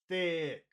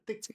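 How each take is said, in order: First: The word is long and strong. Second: The word is short and weak. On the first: The speaker calls it right. "It's got to be big" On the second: The speaker calls it wrong. "not thick"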